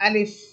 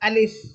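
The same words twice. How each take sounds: First: It ends with light air escaping like an f. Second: The same.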